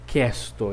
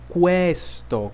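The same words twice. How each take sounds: First: The qu is said like Portuguese que. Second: The qu is said the Italian way. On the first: The speaker calls it wrong. "eu não vou dizer questo, eu não digo isso" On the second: The speaker calls it right. "é questo"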